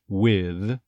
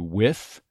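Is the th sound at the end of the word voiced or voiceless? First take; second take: voiced; voiceless. First: The final th sound is voiced. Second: The final th sound is voiceless. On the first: This is the usual English pronunciation. "most people from England actually will say it with a voiced TH" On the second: This is the usual American pronunciation. "most Americans say with the unvoiced TH"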